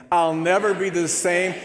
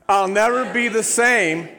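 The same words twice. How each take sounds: First: Bold repeat. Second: Loud, high, fervent declaration; full-force proclamation; really mean it. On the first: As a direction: say it again, louder and firmer. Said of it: "say that line again". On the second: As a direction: shout the vow like you mean it. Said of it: "say it like you really mean it". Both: Shown as a demonstration.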